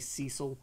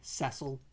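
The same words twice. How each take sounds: First: The name is said with an American pronunciation. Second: The name is said with a British pronunciation. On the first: "The Americans tend to say Cecil" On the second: "Back in England, we say Cecil"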